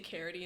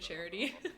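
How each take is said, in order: First: The word begins with a hard k sound. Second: The word begins with a ch sound. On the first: This is how the speaker said it as a child. "I always used to say carity" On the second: This is the usual way to say it. "instead of charity"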